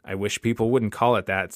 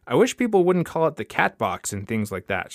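First: Said in the usual way. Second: "cat box" spelled out in a higher-pitched complaint; higher opening, insisting on the objection to "cat box"; emphatic repeat. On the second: Acted. Repeats it after a "What?.

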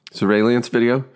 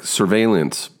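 First: "Surveillance video" pushed out high and deliberate, rising at the end; careful word. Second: "Surveillance" said slowly and deliberately syllable by syllable; careful word. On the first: Actor forcing the tricky word out to the room. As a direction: land "Surveillance video" cleanly. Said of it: "All right". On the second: Actor carefully sounding out the word to the casting room. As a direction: read "Surveillance" off the page with care. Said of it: "I start looking at the page now". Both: Retold or imitated.

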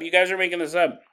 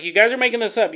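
First: Said in the usual way. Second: Disbelieving. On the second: Retold or imitated. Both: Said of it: "The mom refuses to hear the story".

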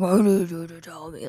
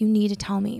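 First: Low, demonic imitation of a yell; deep mock yell. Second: Said in the usual way. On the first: Boyfriend demanding an answer in the bathroom, deep mock yell. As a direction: imitate him like hell's gates opening. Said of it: "yelling it so loud, so deep". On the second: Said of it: "But, like, yelling it so loud".

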